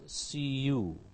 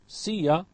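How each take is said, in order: First: The word you is said in full. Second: The word you is reduced to ya. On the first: "see ya becomes see you" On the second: "see ya becomes see you"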